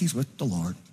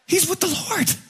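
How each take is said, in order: First: It is said in a glum, resigned way. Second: It is said in a joyful, excited way. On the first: The death is treated as a loss to be endured. The speaker calls it wrong. "oh, very sad, very sad. But, you know, at least" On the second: The death is treated as something to celebrate. The speaker calls it right. "Did you say it like that?"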